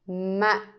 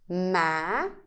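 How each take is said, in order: First: The syllable is cut short and abrupt. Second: The pitch rises from low to high. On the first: "The dot tells you to make it short" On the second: "raise from the lower pitch to a higher pitch"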